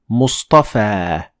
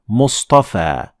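The two takes are said the same way.

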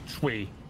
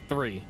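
First: The word begins with a plain 't' sound. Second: The word begins with a 'th' sound. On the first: "some people say tree" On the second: "some people say three"

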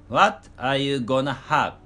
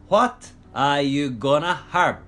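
The two takes are said the same way.

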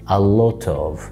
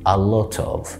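Both takes have the same delivery.

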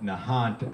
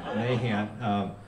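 First: The name is said the Massachusetts way. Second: The name is said the local way. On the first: This is how people in another place say the name. The speaker calls it wrong. "they call it Nahant out there. They don't say it right" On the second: This is how people near the marsh say the name. The speaker calls it right. "We say it right"

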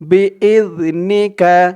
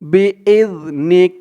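First: The word ends with a short 'a' vowel. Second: The word ends on the consonant 'k'. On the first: The reading continues without a stop. "কাফ জবর কা" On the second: The reciter stops at this word. "থামার কারণে উচ্চারণ হবে বি ইজ নিক"

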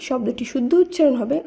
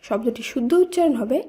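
Both takes have the same delivery.

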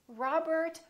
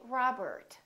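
First: The middle R is pronounced, with a strong tongue curl. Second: The same.

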